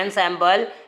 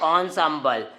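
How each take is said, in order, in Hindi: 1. पहला स्वर 'en' जैसा सुनाई देता है। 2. पहला स्वर 'on' जैसा सुनाई देता है। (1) "लिखते हैं एनसैम्बल" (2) "लेकिन पढ़ते हैं ऑनसैम्बल"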